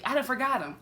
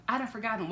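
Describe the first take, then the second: First: Done punched, drawled slangy; stress on done. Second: Said in the usual way. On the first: Shown as a demonstration. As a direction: lean on "done" in "I done forgot him".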